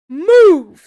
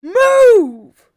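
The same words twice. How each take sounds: First: Very loud, raised one-word command; shouted order. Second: Drawn-out, high bellow; full-force repeated shout. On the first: Soldier ordering Joel aside, loud shout. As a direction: shout him out of the way. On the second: Soldier to Joel who will not budge, high bellow. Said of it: "he repeats himself". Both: A narrator's reading.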